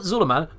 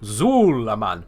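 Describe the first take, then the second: First: The first vowel is short. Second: The first vowel is drawn out long. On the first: The speaker calls it wrong. "Not Zulaman" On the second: The speaker calls it right. "Because there's two U's there"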